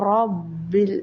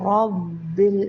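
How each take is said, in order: Both takes have the same delivery.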